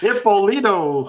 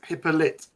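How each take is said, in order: First: The name does not end in a 'lit' sound. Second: The name ends in a 'lit' sound. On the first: The speaker calls it wrong. "you are making me chuckle with that pronunciation of his surname" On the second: The speaker calls it right. "think of hypocrite, just call him lit"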